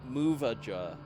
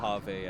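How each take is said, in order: First: The name sounds like 'Muvaja'. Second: The name sounds like 'Mojave'. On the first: This is how it was said in childhood. The speaker calls it wrong. "As a kid, I pronounced that as planet Muvaja" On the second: This is how it is actually said. The speaker calls it right. "what Mojave actually sounded like"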